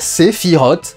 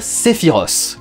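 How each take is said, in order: First: The name is said in a French style. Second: The name is said in a Japanese-derived style. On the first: It is the only way that honors the name. The speaker calls it right. "je vais dire Sephiroth à la française" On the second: It sounds like a merger with a sitcom character. The speaker calls it wrong. "la version japonaise de Sephiroth"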